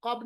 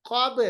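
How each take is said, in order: First: Said in the usual way. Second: कब with b released as "qobe"; qalqalah. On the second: Shown as a demonstration. Teacher corrects learners, कब with echoing b. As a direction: bounce the final b of कब. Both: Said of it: "कब नहीं पढ़ेंगे".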